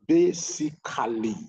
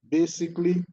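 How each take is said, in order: First: The word is said with three syllables. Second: The word is squeezed into two syllables. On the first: The speaker calls it right. "three syllable sound" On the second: The speaker calls it wrong. "two syllable"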